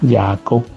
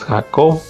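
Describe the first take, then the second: First: The name has a Hebrew pronunciation. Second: The name has a Spanish pronunciation. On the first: This is how people over there say it. "como lo dicen allá" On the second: This is how Spanish speakers say it. "como nosotros le decimos"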